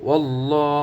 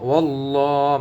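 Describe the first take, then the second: No difference in how they are said.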